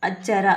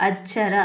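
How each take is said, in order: The two takes are said the same way.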